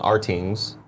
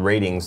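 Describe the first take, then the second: First: The name begins with an ar sound. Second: The name begins with an r sound. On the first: Someone read the letters literally. "Tim his whole life has called Artings" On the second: This is the site's real name. "the T V rating website called ratings dot com"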